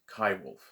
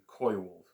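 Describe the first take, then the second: First: The first word sounds like kai. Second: The first word sounds like coy. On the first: The speaker calls it right. "it's kai wolf" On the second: The speaker calls it wrong. "as David Suzuki mispronounces the name"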